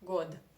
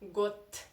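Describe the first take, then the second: First: The final consonant is a voiced d sound. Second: The final consonant is a voiceless t sound. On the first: The speaker calls it wrong. "you do not pronounce it like god" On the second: The speaker calls it right. "You should say got"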